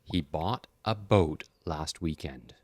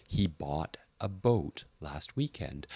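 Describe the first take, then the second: First: Slow, clear repeat-after-me reading; slow model sentence. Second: Slow, careful reading of the sentence; slow model sentence. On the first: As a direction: model it slowly for learners. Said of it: "I'm gonna say the sentence". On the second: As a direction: say it slowly, feeling each vowel. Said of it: "So when you say". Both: Shown as a demonstration.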